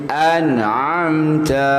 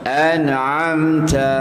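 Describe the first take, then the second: The two takes are said the same way.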